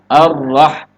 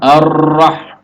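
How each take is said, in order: First: The r is flapped with a single vibration. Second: The r is trilled with many vibrations. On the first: The speaker calls it right. "cukup satu kali getar saja" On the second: The speaker calls it wrong. "bukan ar-rah ... Banyak getaran maka itu melahirkan ro yang banyak"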